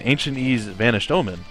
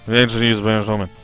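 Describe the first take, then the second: First: The words are projected and clearly enunciated. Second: The words are slurred together and mumbled. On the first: "actually projecting and enunciating" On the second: "it's not like I say"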